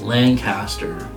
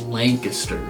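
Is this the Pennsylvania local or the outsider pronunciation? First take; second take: outsider; Pennsylvania local. First: It uses the outsider pronunciation of the name. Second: It uses the local Pennsylvania pronunciation of the name. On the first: This is how people outside the state say it. "Everyone outside of Pennsylvania calls it" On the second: This is how people living in the state say it. "everyone that lives in Pennsylvania calls it"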